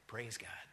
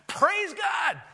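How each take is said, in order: First: It is said quietly and without much energy. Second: It is said loudly and with great energy. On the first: The praise is kept on the inside. The speaker calls it wrong. "he's not just saying" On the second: The praise is openly and joyfully expressed. The speaker calls it right. "He's praising God with a loud voice"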